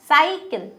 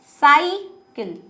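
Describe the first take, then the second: First: साइकिल said quickly with a short i; natural pronunciation. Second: साइकिल drawn out slowly with a long ई in किल; slow overstretched wrong reading. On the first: Teacher contrasts it with the wrong long reading. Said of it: "साइकिल बोलते हैं". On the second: Teacher shows how the misspelling would be read. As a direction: drag out साइकिल, leaning on a long ई. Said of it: "ऐसे थोड़ी बोलते हैं". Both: Shown as a demonstration.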